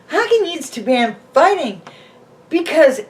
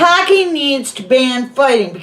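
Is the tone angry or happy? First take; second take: happy; angry. First: It is said in a happy tone. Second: It is said in an angry tone. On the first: "say it happy" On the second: "now say it angry"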